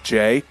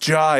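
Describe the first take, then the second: First: The name rhymes with the word day. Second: The name rhymes with the word hi. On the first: The speaker calls it wrong. "they would pronounce it as J" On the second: The speaker calls it right. "it's pronounced Jai. It's like hi with a J"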